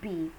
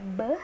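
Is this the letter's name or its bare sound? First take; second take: letter name; bare sound. First: The full letter name with a vowel after. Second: A short bare consonant sound with no vowel. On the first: This is what the letter is called. "ini ini udah B kan" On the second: This is the sound the letter makes in words. "ini dibacanya b"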